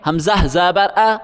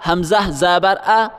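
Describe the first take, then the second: No difference in how they are said.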